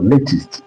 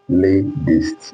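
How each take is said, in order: First: The middle consonant is a clear t sound. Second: The middle consonant is a soft d sound. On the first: "So latest in British English" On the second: "You hear the sound of D there now"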